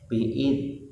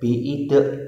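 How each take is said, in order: First: The final consonant ends cleanly with no added vowel. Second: The final consonant is released with an added vowel. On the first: The speaker calls it right. "ya misalnya biid" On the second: The speaker calls it wrong. "tidak boleh biide karena danya pakai titik"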